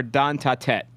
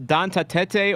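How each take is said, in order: First: "Don Ta Tet" ending sharp on the T; one-syllable Tet. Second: "Don Ta Tete" ending in teh-tay; two-syllable Tete. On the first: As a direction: end "Don Ta Tet" on T, no vowel after. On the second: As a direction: add a final "ay" sound to "Don Ta Tete". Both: Shown as a demonstration. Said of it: "so it is just Tet".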